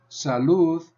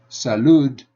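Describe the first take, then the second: First: The final sound is a soft th. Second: The final sound is a hard d. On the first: The speaker calls it right. "I end that with a soft th" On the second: The speaker calls it wrong. "I don't say salud"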